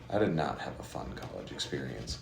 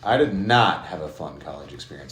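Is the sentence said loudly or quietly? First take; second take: quietly; loudly. First: The sentence is said at a quieter volume. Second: The sentence is said at a louder volume.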